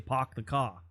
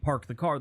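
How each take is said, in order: First: It is said in a Boston accent without R. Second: It is said with the R sounds pronounced.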